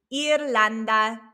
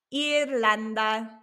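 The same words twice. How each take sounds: The two takes are said the same way.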